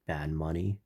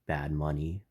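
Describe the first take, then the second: No difference in how they are said.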